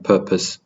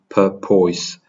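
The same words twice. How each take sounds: First: The second syllable has a reduced vowel. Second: The second syllable has a full o vowel. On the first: The speaker calls it right. "we're just saying purpose" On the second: The speaker calls it wrong. "we're not carrying the o. We're not saying o"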